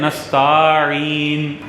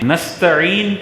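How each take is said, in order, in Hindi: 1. 'nast' के बाद का स्वर लंबा है। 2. 'nast' के बाद का स्वर छोटा है। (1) "पढ़ते हैं नस्ताईन" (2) "नस्तईन की जगह"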